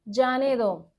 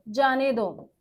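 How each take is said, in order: No difference in how they are said.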